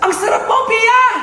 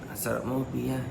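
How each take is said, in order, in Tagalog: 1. Parang nagulat siya. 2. Parang nang-aakit siya.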